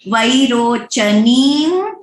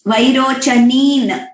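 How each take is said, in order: First: The final nasal is a velar 'ng' sound. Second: The final nasal is a dental 'n' sound. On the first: The speaker calls it right. "यहाँ पे ङ है" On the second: The speaker calls it wrong. "It is not वैरोचनीन, न नहीं है"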